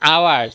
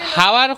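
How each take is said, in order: First: The word begins directly with a vowel sound. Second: The word begins with an audible h sound. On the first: The speaker calls it right. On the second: The speaker calls it wrong.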